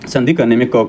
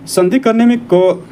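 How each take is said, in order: First: Said in the usual way. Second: संधि करने में क raised high and slowed for emphasis; emphatic teacher statement. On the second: Shown as a demonstration.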